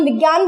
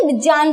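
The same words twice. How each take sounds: First: विज्ञान said as vigyan, with a g sound; विज्ञान with the familiar gya in the middle; everyday Hindi pronunciation. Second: विज्ञान said with a j sound in front, like vi-jnyan; विज्ञान with ज starting the cluster, not g; Sanskrit pronunciation. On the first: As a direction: say विज्ञान the common modern way, vi-gyan. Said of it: "हम ऐसे तो विज्ञान का pronunciation करते हैं". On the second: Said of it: "वो उसको विज्ञान को कैसे बोलेंगे". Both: Shown as a demonstration.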